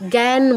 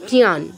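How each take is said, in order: First: The word is pronounced the Bengali way. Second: The word is pronounced the Sanskrit way. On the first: "যেটা আমরা বাংলায় জ্ঞান বলি" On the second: "এটা সংস্কৃতে কি হবে?"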